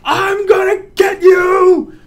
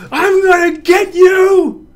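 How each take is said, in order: First: High, loud, slow playful threat; excited shout. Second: High, loud playful threat; excited shout. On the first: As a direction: draw out the yell gleefully. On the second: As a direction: yell it with glee. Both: Shown as a demonstration. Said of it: "that's not as fun as this one".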